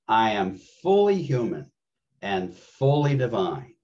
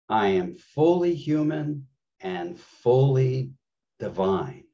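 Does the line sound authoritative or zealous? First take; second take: zealous; authoritative. First: It is said with eager, fervent enthusiasm. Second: It is said firmly, with a commanding tone. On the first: The speaker expresses passionate conviction. "Let's say it zealiciously together" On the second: The speaker claims personal authority. "Let's say it with authority"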